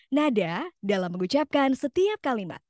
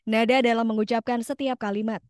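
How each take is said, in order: First: It is said with lively rising and falling pitch. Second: It is said flat, like a computer voice.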